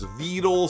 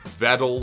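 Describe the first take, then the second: First: The name is said not rhyming with pedal. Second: The name is said to rhyme with pedal. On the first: This has become the unofficial accepted pronunciation. "the A I always pronounces it as Vedal" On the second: This is the creator's original pronunciation. "he initially pronounced it Vedal, like pedal"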